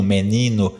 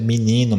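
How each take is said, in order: First: "menino" with a clear e and a final o; full unreduced vowels. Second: "menino" with the e reduced to i, "mininu"; reduced Brazilian vowels. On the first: ("menino" com todas as vogais plenas) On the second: ("menino" falado "mininu", com redução) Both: Shown as a demonstration. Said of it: "não há redução vocálica".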